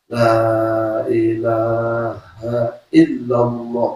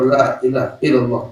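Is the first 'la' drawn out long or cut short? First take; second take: long; short. First: The first vowel of 'la' is held long. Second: The first vowel of 'la' is cut short. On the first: There is no god but God. The speaker calls it right. "la lam ta'zim, enam harokat" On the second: There is a god except God. The speaker calls it wrong. "kalau la dibaca pendek"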